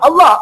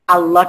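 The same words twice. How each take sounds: First: The word is repeated quickly and forcefully. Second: The word is said slowly and gently. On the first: The speaker calls it wrong. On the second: The speaker calls it right.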